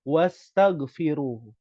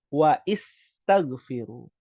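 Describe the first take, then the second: First: The i vowel after wa is dropped. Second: The i vowel after wa is pronounced. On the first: This is how it is read after a preceding word. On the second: This is the underlying form before linking.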